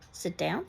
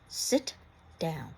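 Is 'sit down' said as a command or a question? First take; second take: question; command. First: It is said as a question, rising. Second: It is said as a forceful command. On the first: It asks whether to sit down. "which is why you would use a question mark" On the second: It orders someone to sit down. "an exclamation point"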